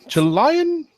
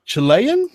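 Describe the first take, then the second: First: "Chilean" said chuh-LIE-un, very high; alternative pronunciation. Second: "Chilean" said chuh-LAY-un, pitched up questioningly; tentative pronunciation. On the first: Co-host guessing a second time, "Chilean" as chuh-LIE-un. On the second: Co-host guessing at an Irish name, "Chilean" as chuh-LAY-un. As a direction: try "Chilean" with a LAY middle, rising. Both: Shown as a demonstration. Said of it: "I don't know".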